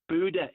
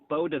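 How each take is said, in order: First: The first vowel sounds like 'oo'. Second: The first vowel sounds like 'oh'. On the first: The speaker calls it right. "Buda. It's not Boda" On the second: The speaker calls it wrong. "It's not Boda"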